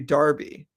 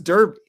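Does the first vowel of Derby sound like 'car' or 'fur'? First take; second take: car; fur. First: The first vowel sounds like the one in car. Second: The first vowel sounds like the one in fur. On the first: "the British pronunciation" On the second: "and she says Derby"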